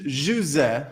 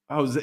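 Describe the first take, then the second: First: Jose said as ZHOO-zeh, Portuguese style; Portuguese pronunciation. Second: Said in the usual way. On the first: Shown as a demonstration. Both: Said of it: "That's how they say it in Portuguese".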